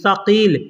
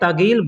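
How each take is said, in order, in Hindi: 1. यह स ध्वनि से शुरू होता है। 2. यह त ध्वनि से शुरू होता है। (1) "लिखा जाता है सकील" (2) "बोलने के लिए तगील बोला जाता है"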